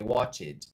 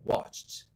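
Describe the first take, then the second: First: The -ed ending is said as an extra syllable. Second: The -ed ending adds no extra syllable. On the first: The speaker calls it wrong. "não é" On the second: The speaker calls it right. "é"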